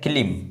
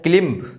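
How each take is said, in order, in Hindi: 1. अंत में b की कोई आवाज़ सुनाई नहीं देती। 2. अंत में b की आवाज़ सुनाई देती है। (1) "बी जो है वो क्या है, साइलेंट है" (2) "नहीं"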